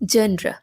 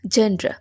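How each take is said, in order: First: The word ends with an r-a sound. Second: The word ends with an r-a sound.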